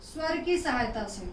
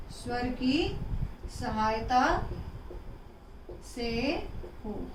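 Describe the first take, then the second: First: Said in the usual way. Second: स्वर की सहायता से हो drawn out, word by word; slow dictation. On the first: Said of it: "repeated for dictation". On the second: Shown as a demonstration. Teacher dictating the definition slowly to pupils. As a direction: pace it out so the class can copy it. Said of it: "repeat for dictation".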